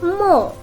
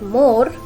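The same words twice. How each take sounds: First: The R sound is silent. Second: The R sound is pronounced. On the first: The speaker calls it right. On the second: The speaker calls it wrong.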